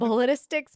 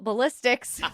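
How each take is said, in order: First: The word has an extra 'ti' syllable inserted. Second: The word is said with its standard syllables. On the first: The speaker calls it wrong. "Total sarcasm" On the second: The speaker calls it right. "I have to actually work hard to say it right"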